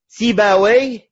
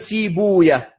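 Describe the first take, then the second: First: The name ends with an 'awi' sound. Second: The name ends with an 'ouya' sound. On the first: This is the Arabized form. "Ou bien on l'arabise" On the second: This keeps the original Persian form. "au lieu de"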